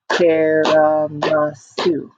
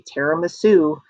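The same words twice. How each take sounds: First: "Tiramisu" slowed to four level beats; split into syllables. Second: Said in the usual way. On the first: Shown as a demonstration. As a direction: clap out "Tiramisu" as TI-RA-MI-SU. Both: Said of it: "Let's do one more time".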